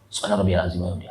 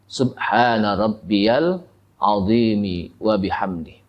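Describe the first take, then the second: First: It is said quickly and hurried. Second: It is said at a calm, unhurried pace.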